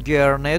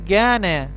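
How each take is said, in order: First: The r sound is clearly pronounced. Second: The r sound is weakened, almost dropped. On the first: "هم گرنه درسته" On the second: "ارق رو میتونید آی خفیف هم تلفظ کنید"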